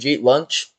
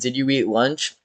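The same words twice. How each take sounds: First: "Did you eat" is squeezed into one syllable, "jeet". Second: Each word of "did you eat" is said separately. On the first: "Like just G" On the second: "I never say"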